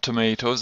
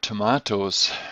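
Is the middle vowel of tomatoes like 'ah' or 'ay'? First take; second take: ay; ah. First: The middle vowel sounds like 'ay'. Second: The middle vowel sounds like 'ah'. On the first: The speaker calls it wrong. "this is not tomatoes in English" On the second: The speaker calls it right. "The soft A"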